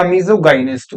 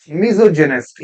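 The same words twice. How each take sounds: First: Misogynist with hard g, 'miso-guy-nist'; alternative hard-g pronunciation. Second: Misogynist with a 'j' sound, 'miso-jinist'; soft-g pronunciation. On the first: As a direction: say the middle of misogynist like 'guy'. (misogynist को 'मिसोगाइनिस्ट' बोलें) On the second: (Misogynist को 'मिसोजिनिस्ट' बोलें) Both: Shown as a demonstration. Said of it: "whatever you call it".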